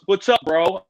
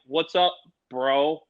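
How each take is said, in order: First: Louder, easy rising hey; breezy bro hello; casual bro greeting. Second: Slow, lower, cool reply; deliberately chill answer; playing it cool. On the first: Retold or imitated. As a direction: toss it off like a laid-back star. Vince Vaughn greets him casually. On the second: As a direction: drawl it back, trying not to fanboy.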